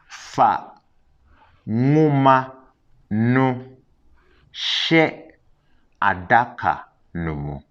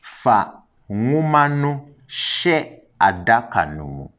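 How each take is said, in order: First: It is said more slowly. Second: It is said at normal speed.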